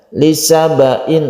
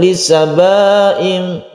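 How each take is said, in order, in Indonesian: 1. Vokalnya diucapkan pendek, tanpa dipanjangkan. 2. Vokalnya dipanjangkan. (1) "tidak panjang bacanya. Lisabain langsung" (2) "saya mendengar itu membacanya panjang"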